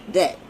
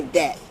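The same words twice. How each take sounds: First: "Dat" said with a d instead of th. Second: "dat" said with a hard d for th. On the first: Explaining her natural twang, says Dat with a d. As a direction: clip "Dat" with a firm d. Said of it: "That's spelled D A T". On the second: Speaker showing how her people say that, with a d. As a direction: say "dat" as our own twang, d not th. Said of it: "Because I say". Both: Shown as a demonstration.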